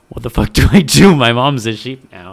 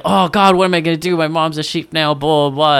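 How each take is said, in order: First: A loud, hammed-up cry of distress; mock distress. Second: Higher, louder, hammed-up panicked kid; mock panic. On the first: Kid whose mom became a sheep cries out, in loud mock distress. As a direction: overplay the kid's panic, loud. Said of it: "genuinely distressed". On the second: Kid in the ad panics after his mom turns into a sheep, in a mock panic. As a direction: ham up a kid freaking out. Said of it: "it's very like".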